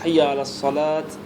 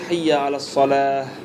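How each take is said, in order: First: The last word ends with a t sound. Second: The last word ends with an h sound. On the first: The speaker calls it wrong. "lorsque vous dites Hayya ala salat, c'est écrit ta, mais c'est un ha" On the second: The speaker calls it right. "Vous prononcez Hayya ala salah"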